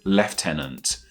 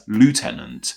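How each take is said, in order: First: It is said the British way, lef-tenant. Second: It is said the American way, loo-tenant.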